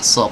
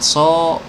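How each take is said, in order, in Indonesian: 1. Vokal itu tebal dengan bibir tidak monyong. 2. Vokal itu diucapkan dengan bibir monyong ke depan. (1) "huruf shad tidak boleh dimonyongkan" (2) "kalau dimonyongkan ini ah, so, ya ini salah"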